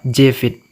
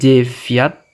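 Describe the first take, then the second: First: The word ends with an 'it' sound. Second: The word ends with a 'yat' sound. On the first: The speaker calls it right. "membacanya Jvit" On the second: The speaker calls it wrong. "kalau Jviat itu salah ya"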